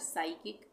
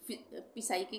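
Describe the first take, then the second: First: The initial P sound is silent. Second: An initial P sound is pronounced. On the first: The speaker calls it right. "पी silent हो जाएगा" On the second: The speaker calls it wrong. "इसको हम पी साइकिक नहीं बोलेंगे"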